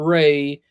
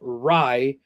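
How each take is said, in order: First: The vowel sounds like 'ay'. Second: The vowel sounds like 'eye'. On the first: The speaker calls it wrong. "not Ray" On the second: The speaker calls it right. "it's pronounced Rye"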